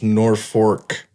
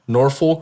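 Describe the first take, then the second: First: The second syllable sounds like 'fork'. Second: The second syllable does not sound like 'fork'. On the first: This is the name of the Nebraska town. "but then there's Norfolk, Nebraska" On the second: This is the name of the Virginia city. "Norfolk, Virginia"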